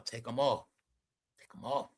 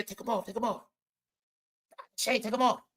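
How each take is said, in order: First: Imitating a hushed, much softer mother's order; quiet mother telling her. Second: Imitating a sassy auntie scolding, softer and higher; mock a stern auntie nagging under her breath. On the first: Mother quietly tells daughter to remove shades, hushed. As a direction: murmur it low like a mom correcting her kid. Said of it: "She's telling her". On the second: Assistant scolds [name] about the shades, sassy mock auntie.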